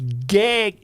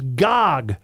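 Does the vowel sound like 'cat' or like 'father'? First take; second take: cat; father. First: The vowel sounds like the 'a' in cat. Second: The vowel sounds like the 'a' in father. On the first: The speaker calls it wrong. "not the way you keep saying it" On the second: The speaker calls it right. "with the A being ah"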